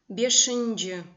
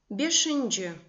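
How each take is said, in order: No difference in how they are said.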